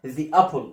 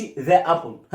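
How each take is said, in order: First: "The apple" with The as "thee"; "thee" before vowel. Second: "the apple" with the as "thuh"; mis-say "the apple" with an open "thuh"; wrong "the" demo. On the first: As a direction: model "The apple" correctly as thee-apple. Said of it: "ذي لما يجي قبلها حرف فاول". (نطق "The apple" صح، ذي مكسورة) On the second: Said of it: "ما أقولش the apple". (نطق "the apple" غلط، ذا مفتوحة) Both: Shown as a demonstration.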